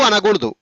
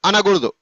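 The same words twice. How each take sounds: No difference in how they are said.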